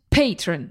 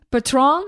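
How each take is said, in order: First: The stress is on the first syllable. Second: The stress is on the second syllable. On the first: The speaker calls it right. "Dat het op de eerste klemtoon moest liggen" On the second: The speaker calls it wrong. "het is dus niet patron"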